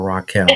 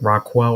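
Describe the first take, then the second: First: The name sounds like 'ra-kel'. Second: The name sounds like 'rock well'. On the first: The speaker calls it right. "It's Raquel" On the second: The speaker calls it wrong. "am I saying it right? Because I have a cousin named Rockwell"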